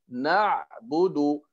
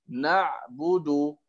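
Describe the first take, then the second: No difference in how they are said.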